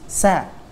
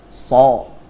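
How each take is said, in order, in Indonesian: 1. Bunyinya tipis dan ringan. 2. Bunyinya tebal dan berat. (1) "maka dibaca tipis" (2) "bukan so"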